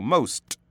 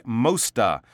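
First: "most." ending sharply on the T, no extra vowel; clean final T. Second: "mosta" with an added "a" after the T; extra A sound. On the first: Shown as a demonstration. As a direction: stop dead on the T of "most.". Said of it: "It has to stop". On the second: Retold or imitated. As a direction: imitate the wrong "mosta", tacking on a vowel. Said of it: "the classic mosta".

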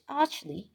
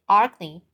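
First: "archly" with a ch sound as in "church"; corrected archly. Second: "archly" said with a k sound, like "arkly"; mispronounced archly. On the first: Reader correcting a slip, "archly" with a soft ch sound. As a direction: say "archly" as "artch-lee". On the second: Reader stumbling over a word, "archly" with a hard k. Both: Real, not acted. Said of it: "sorry, archly".

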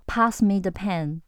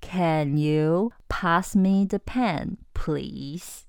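First: Slow, flat command; curt failing request; blunt order. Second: Very slow, gentle asking; polite full-marks request. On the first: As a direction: bark it as an order. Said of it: "不行". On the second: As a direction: ask as courteously as you can. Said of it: "怎么样才会满分". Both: Shown as a demonstration.

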